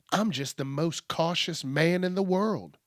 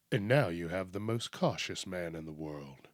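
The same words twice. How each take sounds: First: Said in the usual way. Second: Low, soft announcer voice; mock ad announcer. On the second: Spoofing the most interesting man in the world, deep ad announcer. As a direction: drop deep and quiet for a parody tagline.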